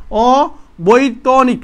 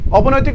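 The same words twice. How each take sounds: First: অবৈতনিক slowly broken up, 'o-boi-to-nik'; corrected pronunciation. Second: Syllables swapped, 'obonoitik'; mistaken pronunciation. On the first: Shown as a demonstration. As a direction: sound out অবৈতনিক part by part. (ধীরে ভেঙে 'অ-বৈ-ত-নিক' উচ্চারণ) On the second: Real, not acted. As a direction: misread it as অবনৈতিক, 'o-bo-noi-tik'. (ভুল করে 'অ-ব-নৈ-তিক' উচ্চারণ) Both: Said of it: "sorry, অবৈতনিক".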